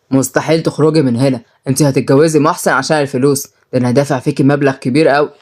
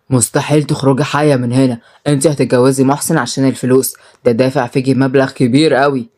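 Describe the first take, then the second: First: Low, menacing male figure; domineering brother. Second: Low, understated angry threat; angry muttered threat. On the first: Brother forcing his sister to marry, domineering. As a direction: lay down the law in a lowered voice. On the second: Brother threatening his sister up close, understated anger. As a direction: threaten her in a voiced, low-pitched undertone. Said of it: "وهمس في ودنها بكل غضب". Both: Acted.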